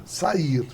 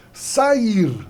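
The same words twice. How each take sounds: First: Said in the usual way. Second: SAIR drawn out as SA-IR; hiatus sounded out. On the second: Shown as a demonstration. Teacher testing for a hiatus, SAIR stretched into two syllables. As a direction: stretch SAIR to show A and I apart. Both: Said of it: "É hiato?".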